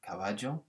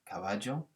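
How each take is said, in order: First: The double L sounds like a j. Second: The double L sounds like a j.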